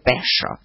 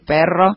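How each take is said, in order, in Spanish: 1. Se dice a la manera regional propia del hablante. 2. Se dice de la manera habitual de Buenos Aires. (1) "Mi mamá habló otro idioma" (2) "en vez de decir perro"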